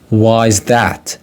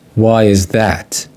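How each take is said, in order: First: It is said faster with 'is' contracted. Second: It is said slowly with 'is' in full.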